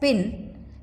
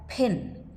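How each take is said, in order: First: The p is released without a puff of breath. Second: The p is released with a puff of breath. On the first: "Instead of pronouncing it as pin" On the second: "we can pronounce it as pin"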